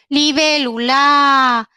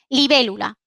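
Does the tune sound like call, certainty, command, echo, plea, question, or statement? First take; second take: plea; statement. First: It is said with a pleading, begging tune. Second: It is said with a neutral statement tune. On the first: It begs for something. "Súplica" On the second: It states what something is.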